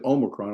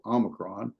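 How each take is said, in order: First: The first O is a long vowel. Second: The first O is a short vowel. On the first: "I think you said Omicron" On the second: "I normally put it with a short O"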